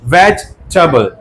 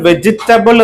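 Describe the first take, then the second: First: It is said with three syllables. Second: It is said with four syllables. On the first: The speaker calls it right. "പക്ഷെ ഇത് വെജ് ടബിൾ എന്നാണ്" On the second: The speaker calls it wrong. "വെജിറ്റബിൾ എന്ന് നമ്മൾ പറയാറുണ്ട്"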